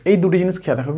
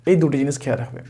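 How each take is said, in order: First: Said in the usual way. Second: Softer repeat. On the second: Shown as a demonstration. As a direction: lower and softer, letting it sink in. Repeats the key advice softly. (নিচু ও নরম স্বরে পুনরাবৃত্তি)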